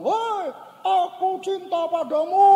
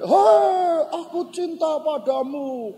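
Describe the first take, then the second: First: Very high, slow holler; stretched, high-pitched call into the distance; child calling out. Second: Loud high "hei" then settling; big high echoing shout, easing off; echo answering back. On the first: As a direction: imitate a kid calling love across a ravine. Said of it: "Lalu si anak bilang". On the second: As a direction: imitate a ravine shouting the call back. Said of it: "Lalu dari sana balik". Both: Retold or imitated.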